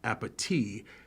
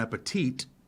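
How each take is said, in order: First: The word ends without any T sound. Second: The final T sound is clearly pronounced. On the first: The speaker calls it right. "It's supposed to be pronounced appetit" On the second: The speaker calls it wrong. "pronouncing it with a T"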